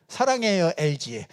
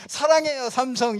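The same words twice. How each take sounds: First: Lightly sung-out commercial tagline; mock LG commercial slogan. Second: A mismatched mock slogan, played up. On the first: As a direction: read it like a TV ad jingle line. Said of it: "엘지 같은 데죠". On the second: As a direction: pitch it like an ad that doesn't fit. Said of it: "이런 거는 안 맞아요". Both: Shown as a demonstration.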